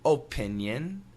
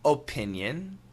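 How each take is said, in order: First: Careful, fully articulated American accent. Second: The same.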